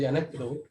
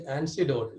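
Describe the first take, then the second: First: "anecdote" said as the right word; corrected pronunciation. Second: "antidote" said as the wrong word; mispronounced word. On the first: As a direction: say "anecdote" with a k sound in the middle, as a correction. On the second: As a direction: say "antidote" in place of anecdote, as the mistake. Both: Shown as a demonstration. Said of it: "I pronounced one word wrong".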